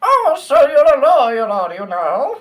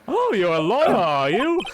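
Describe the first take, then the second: First: Much higher, louder character voice, squeaky and hammed-up; a loud falsetto lawyer-greeter; silly high voice. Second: Higher, a touch lighter greeting; lightly voiced quizzical old man; character voice. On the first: Playing a game character, a loud squeaky high voice. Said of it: "That's even worse". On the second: Friend takes over the role, a mildly higher character voice. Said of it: "I like the way you do it".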